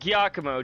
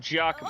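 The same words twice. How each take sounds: First: The name begins with a hard G sound. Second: The name begins with a J sound. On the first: The speaker calls it wrong. "not a G" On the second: The speaker calls it right. "With a J"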